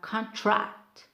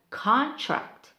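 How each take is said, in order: First: The stress is on the second syllable. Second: The stress is on the first syllable. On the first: It is used as a verb. "for verb we have contract" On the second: It is used as a noun. "We have contract"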